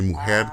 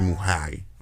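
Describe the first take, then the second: First: The final R is pronounced as an R. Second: The final R is pronounced like an I. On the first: This is how most Dominican speakers say it. "they don't say mujer" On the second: This is how speakers from Cibao say it. "they say muhay"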